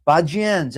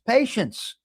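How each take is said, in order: First: Pazienza said the Italian way, pah-TSYEN-tsa with a rolled flourish; Italian word. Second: Said in the usual way. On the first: Shown as a demonstration. Host teaching viewers the Italian word, Italian pronunciation. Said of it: "as we say in Italian". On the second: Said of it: "that means a little patience".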